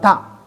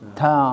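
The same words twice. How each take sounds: First: The consonant sound is cut off abruptly. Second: The consonant sound flows on smoothly. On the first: The speaker calls it wrong. "bukan ta" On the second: The speaker calls it right. "ta mengalir"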